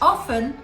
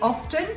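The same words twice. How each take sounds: First: The T in the middle is silent. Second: The T in the middle is pronounced. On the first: The speaker calls it right. "that is the correct pronunciation. Do not pronounce the T, it's a silent T" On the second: The speaker calls it wrong. "you're not going to get points for that one"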